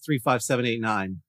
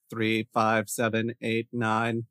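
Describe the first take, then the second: First: It is said in a natural speaking voice. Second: It is said in a flat, robotic voice.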